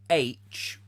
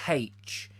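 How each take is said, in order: First: The letter name starts with a vowel sound. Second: The letter name starts with an H sound. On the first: "which starts with the letter A" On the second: "enunciates is the H in H, as in H"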